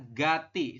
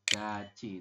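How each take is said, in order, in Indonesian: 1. Konsonan kedua terdengar seperti t biasa. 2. Konsonan kedua terdengar seperti ch. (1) "Mungkin Anda kalau tidak paham, Anda akan membacanya adalah gati" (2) "maka tiet berubah bunyi menjadi ciet"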